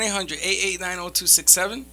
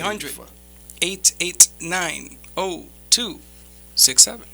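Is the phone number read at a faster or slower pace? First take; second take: faster; slower. First: The number is read at a normal pace. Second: The number is read at a slower pace.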